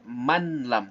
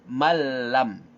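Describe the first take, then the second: First: The n sound is heard before the l. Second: The n merges fully into a doubled l. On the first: The speaker calls it wrong. "tidak dibaca manlam" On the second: The speaker calls it right. "tapi malam ya"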